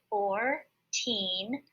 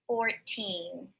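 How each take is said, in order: First: Put-on four-teen said very slowly, syllable by syllable; syllables split. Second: Said in the usual way. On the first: Shown as a demonstration. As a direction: split four-teen into two slow beats. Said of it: "makes the long E sound".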